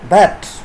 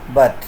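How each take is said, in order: First: The word has a full, strong vowel. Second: The word has a weak, reduced vowel.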